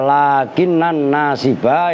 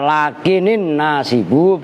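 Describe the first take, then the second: First: The final word ends with an 'a' vowel. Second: The final word ends with an 'u' vowel. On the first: The particle governs the noun like anna does. "Kalau dibaca lakinan nasiba ya berarti lakin saudaranya anna" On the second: The noun is read as the subject of the clause. "Kalau dibaca lakinin nasibu berarti mubtada"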